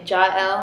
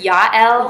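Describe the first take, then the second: First: The name is given an English pronunciation. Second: The name is given its Hebrew pronunciation. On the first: "but you could say Jael" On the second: "in Hebrew it's Yael"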